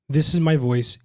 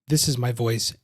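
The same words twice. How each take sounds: First: The voice sounds full and rich. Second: The voice sounds thin and hollow. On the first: The speaker calls it right. "in phase with the microphone. That's the setting you want to keep" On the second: The speaker calls it wrong. "out of phase with the microphone"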